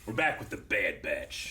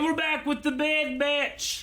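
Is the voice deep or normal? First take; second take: deep; normal. First: It is said in a deeper voice. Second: It is said in a normal voice.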